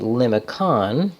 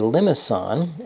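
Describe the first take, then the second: First: The middle C is said as a K sound. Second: The middle C is said as an S sound. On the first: A convention for people who love lima beans. The speaker calls it wrong. "If it were a hard C, that would be limicon" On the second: A particular type of polar graph. The speaker calls it right. "with a cedilla mark, we, we say limison"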